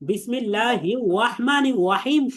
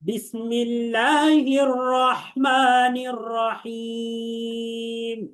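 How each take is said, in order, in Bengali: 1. র-ধ্বনিগুলো w-এর মতো শোনা যায়। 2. র-ধ্বনিগুলো স্পষ্ট র-এর মতো। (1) "শোনা যায় ওয়াওয়ের মতো" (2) "আমার সাথে সাথে বলেন"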